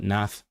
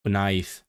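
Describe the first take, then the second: First: NATH with the "eye" glide turned into a plain "ah"; accented Welsh vowel. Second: WNAETH with a gliding "eye" vowel, drawn out; textbook Welsh pronunciation. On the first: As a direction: say "nath" with an open "a", as in dialect. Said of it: "The I becoming a". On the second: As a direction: say "wnaeth" the textbook way, with the full diphthong. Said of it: "in textbook Welsh, we say wnaeth". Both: Shown as a demonstration.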